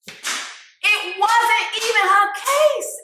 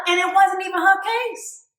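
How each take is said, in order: First: High, drawn out word by word; slow emphatic repeat. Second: Said in the usual way. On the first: Real, not acted. Hyping the rapper's courtroom bar, slow and emphatic. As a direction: stretch every word for emphasis.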